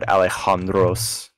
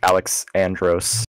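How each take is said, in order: First: The name is pronounced the Spanish way. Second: The name is pronounced the English way. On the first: "taking it down the uh, Spanish road" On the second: "I'm cool with"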